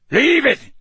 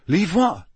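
First: High, loud shouted command. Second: Higher, puzzled question; bewildered. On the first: Moody ordering Crabbe off the ferret, shouting. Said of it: "Moody shouted". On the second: Harry confused by Moody's order, bewildered. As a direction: ask it in bewilderment. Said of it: "Harry said, bewildered". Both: A narrator's reading.

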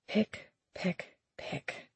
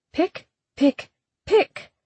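First: Softer and softer, the last word breathed; fading whisper. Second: High, prim pecking words; prim lecturing voice. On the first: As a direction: whisper the echo as it fades away. Echo in her head. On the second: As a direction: peck each word out primly. Spoken aloud, then echoed. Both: Acted.

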